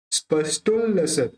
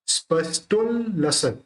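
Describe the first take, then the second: No difference in how they are said.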